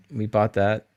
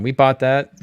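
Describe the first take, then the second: First: Said in the usual way. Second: Louder, punching the word bought; emphatic. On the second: Real, not acted. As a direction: hit "bought" hard and loud.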